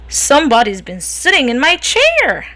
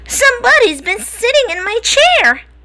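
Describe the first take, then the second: First: It is said in a big growly voice. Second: It is said in a tiny little voice.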